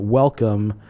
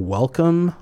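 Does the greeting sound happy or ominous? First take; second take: ominous; happy. First: The greeting sounds dark and threatening. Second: The greeting sounds warm and cheerful. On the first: The visitor is being warned of danger. "you're going to leave without one of your organs" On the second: The visitor is gladly invited in. "like, come on in, we're happy to have you"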